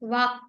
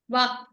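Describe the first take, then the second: First: The final k is cut off in the throat. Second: The final k is cut off in the throat.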